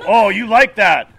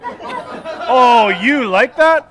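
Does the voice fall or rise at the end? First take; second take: falls; rises. First: The voice falls at the end, confidently. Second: The voice rises at the end, like a question.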